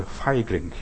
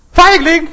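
First: Said in the usual way. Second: High, loud shout into the forest; shouted call. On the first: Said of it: "sagt der Vater, „Ruft jetzt mal". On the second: Acted. Child obeys father and calls out, loud high shout. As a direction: yell it out at high pitch. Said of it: "Ruft jetzt mal Feigling".

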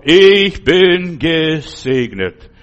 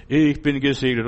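First: Slow, loud proclaiming cry of Ich bin gesegnet; calling out loud. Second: Said in the usual way. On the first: Shown as a demonstration. Preacher showing how he cries out in dark hours, slow loud call. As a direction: shout it out slowly like a proclamation. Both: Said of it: "rufe ich ganz laut".

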